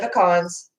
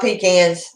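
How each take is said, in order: First: The first syllable does not sound like 'pee'. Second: The first syllable sounds like 'pee'. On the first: The speaker calls it right. "Yes, I said pecans" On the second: The speaker calls it wrong. "I don't pee in a can"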